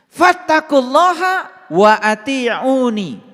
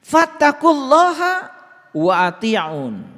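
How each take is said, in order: First: The last word ends with a final 'i' vowel. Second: The last word ends without a final vowel. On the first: The speaker calls it right. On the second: The speaker calls it wrong.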